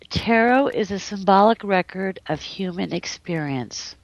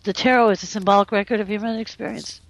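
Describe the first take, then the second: First: It is spoken at a slower, deliberate pace. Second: It is spoken at a normal conversational pace.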